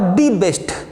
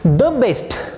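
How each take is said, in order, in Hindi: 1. 'The' को लंबे 'ee' स्वर के साथ बोला जाता है। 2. 'The' को छोटे 'uh' स्वर के साथ बोला जाता है।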